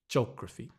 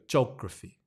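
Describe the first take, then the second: No difference in how they are said.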